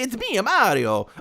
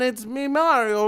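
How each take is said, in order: First: The cartoon voice is loud and highly exaggerated. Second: The cartoon voice is softer and more restrained. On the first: The speaker calls it wrong. "you can't go full Charles Martinet" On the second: The speaker calls it right. "maybe kind of bring it down a little bit"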